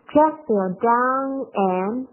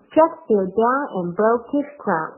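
First: Slowly, with and reduced to a light en; slow model phrase with and weakened; slow demo, weak and. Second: Said in the usual way. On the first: Shown as a demonstration. Teacher models the weak and for students, slowly. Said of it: "不要读出来，这个弱读". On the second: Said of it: "读起来很上口的".

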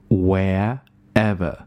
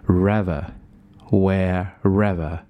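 First: "wherever" split into "where" and "ever"; slow, gap before "ever" in "wherever"; unlinked pronunciation. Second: "wherever" as "whe-rever", R starting "rever"; slow demo linking R into "ever" in "wherever"; linked pronunciation. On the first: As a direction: pull "wherever" apart into two words. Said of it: "把这个r和ever连读". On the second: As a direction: slowly show "rever", then "wherever". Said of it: "把这个r和ever连读， 就是rever". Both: Shown as a demonstration.

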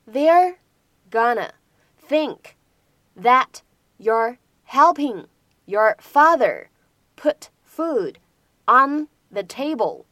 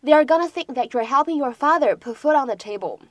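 First: They're, gonna, think said apart, then slow "helping your father"; slow word by word. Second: Said in the usual way. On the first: Shown as a demonstration. Teacher slowing the line down for students, slow and chunked. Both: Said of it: "有这样的几处发音技巧".

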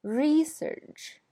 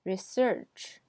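First: Research with RE much higher and louder; noun stress. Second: Research stressed on SEARCH, rising; verb stress. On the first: Teacher models the noun, stress on RE. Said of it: "前面是名词". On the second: Teacher models the verb, stress on SEARCH. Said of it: "后边是动词". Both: Shown as a demonstration.

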